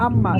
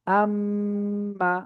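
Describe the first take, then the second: First: "আম্মা" said quickly with no hold on the m; wrong way, no hold. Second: "আম্মা" slowly, m held long through the nose; "আম্মা" drawn out, m sustained; held nasal m. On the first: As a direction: run through "আম্মা" without sustaining the m. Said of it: "আমরা এরকম পড়বো না". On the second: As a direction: stretch the m in "আম্মা" before the vowel. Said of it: "আম ধরে রাখতে হবে". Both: Shown as a demonstration.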